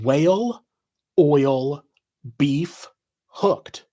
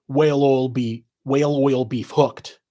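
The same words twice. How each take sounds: First: Four separate words, a pause after each. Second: Words run together, no gaps; said fast. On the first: Reading four words off a shirt, word by word. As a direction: read it out as four unconnected words. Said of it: "four words in block letters". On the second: Revealing the shirt's hidden Irish joke, said fast. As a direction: slur the four words into one phrase. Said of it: "if you said it fast". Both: Shown as a demonstration.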